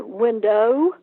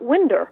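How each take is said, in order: First: "window" with a clear -ow ending; careful window. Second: "winder" said with a Southern -er ending. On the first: Author showing how she learned to say "window", careful pronunciation. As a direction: finish "window" on a full o sound. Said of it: "I would be sure and say window". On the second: Author contrasting her old Southern "winder", Southern pronunciation. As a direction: say "winder" the South Georgia way, r at the end. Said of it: "and not winder". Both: Shown as a demonstration.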